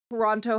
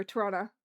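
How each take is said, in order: First: Said in the usual way. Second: Toronto as Toronno, with the second t dropped; local Toronto pronunciation. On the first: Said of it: "as it were, Toronto". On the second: Shown as a demonstration. Showing chat how locals say the city's name. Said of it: "as it were".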